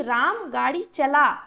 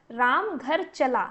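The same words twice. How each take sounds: First: चला punched louder, as a command; stress on चला. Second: Said in the usual way. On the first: Shown as a demonstration. Teacher demonstrating a command, चला stressed loud. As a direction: hit the word चला hard, like an order. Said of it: "चला पर ज़्यादा जोर दिया जा रहा है". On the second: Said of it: "साधारण सा वाक्य हो गया".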